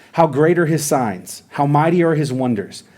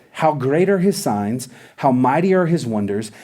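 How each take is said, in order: No difference in how they are said.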